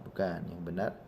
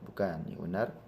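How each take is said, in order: The two takes are said the same way.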